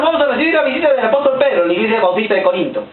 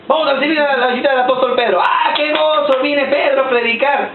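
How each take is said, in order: First: Said in the usual way. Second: Excited announcer. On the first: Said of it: "mock church announcement". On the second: Retold or imitated. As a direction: announce the guest with fanfare. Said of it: "mock church announcement repeated".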